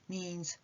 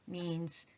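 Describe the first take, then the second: Both takes have the same delivery.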